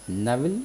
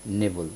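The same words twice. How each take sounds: First: نیول with open first vowel, "NAV-il"; first variant of نیول. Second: نیول with "ay" first, "NAY-vul"; second variant of نیول. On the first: Teacher offering either pronunciation, نیول said as "navil". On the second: Teacher offering either pronunciation, نیول said as "nevul". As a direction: say نیول as "nevul", falling at the end. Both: Shown as a demonstration. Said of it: "نیول یا".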